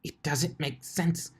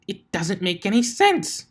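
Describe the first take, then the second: First: Bewildered muttering. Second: Higher and louder, exasperated; frustrated outburst. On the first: Twilight failing at the apple tree. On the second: Twilight yelling at the stubborn apple tree, exasperated. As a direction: blurt it out in frustration. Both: Acted.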